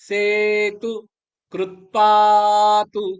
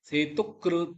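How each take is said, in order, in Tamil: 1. நெடில் உயிரெழுத்துக்குப் பின் t ஒலி ஒற்றையாக இருக்கும். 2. குறில் உயிரெழுத்துக்குப் பின் t ஒலி இரட்டிக்கும்.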